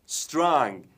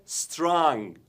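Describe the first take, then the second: No difference in how they are said.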